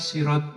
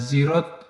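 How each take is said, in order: First: It begins with a plain, light S sound. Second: It begins with a voiced Z sound. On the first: Some read it this way. "dengan memakai sin" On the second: It comes from the dialect of certain tribes. "dengan memaka, memakai za"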